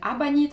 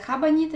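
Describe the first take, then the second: First: The word begins directly with a vowel. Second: The word begins with an h sound. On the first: "абанита на испанский манер" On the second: "Некоторые говорят хабанита"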